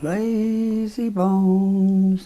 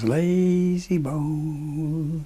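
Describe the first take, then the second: First: It is said higher and a little louder. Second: It is said at a lower pitch.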